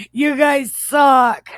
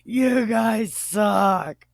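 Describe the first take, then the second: First: Slow, high, loud jeer; shouted insult. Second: Slow, drawn-out jeer; mock insult. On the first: Acted. Joe jeering at his brothers, shouted insult. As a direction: hurl it as a hammed-up shout. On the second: Joe jeering at his brothers, drawn-out mock insult. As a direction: repeat the taunt at moderate volume, stretched out. Repeats the insult after laughing.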